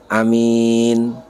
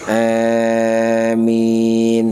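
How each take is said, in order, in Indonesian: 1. Vokal pertama pendek; m-nya tunggal. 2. Vokal panjang pertama condong ke bunyi e. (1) "pendek hamzahnya, ringan mimnya" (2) "panjang hamzanya imalah, ringannya mim"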